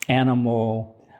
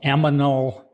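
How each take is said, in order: First: The n sound comes before the m sound. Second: The m sound comes before the n sound. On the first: The speaker calls it right. "for animal" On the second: The speaker calls it wrong. "odd pronunciations like"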